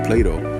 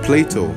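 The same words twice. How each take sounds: First: The T is softened, not clearly pronounced. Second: The T is pronounced as a clear T.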